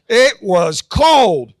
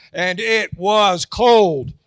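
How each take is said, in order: First: "cold" slow and much louder, laughing; retrying the punchline louder for the crowd. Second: Slow, stretched "cold"; punchline "cold" dragged out slowly; drawn-out punchline. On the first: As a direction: hit "cold" harder this time, drawn out. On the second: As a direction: drag out "cold" for the laugh. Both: Shown as a demonstration. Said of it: "Let's try it again".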